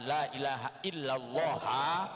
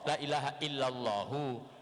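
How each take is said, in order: First: The name Allah ends with an a vowel. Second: The name Allah ends with a u vowel. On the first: "boleh kita bacanya fathah" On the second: "dan juga boleh kita bacanya dhamma"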